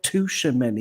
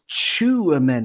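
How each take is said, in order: First: The first syllable sounds like 'touch'. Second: The first syllable sounds like 'chew'. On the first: The speaker calls it wrong. "it's not Tushimeni because he doesn't touch many" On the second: The speaker calls it right. "It's Chouameni because he chews them up"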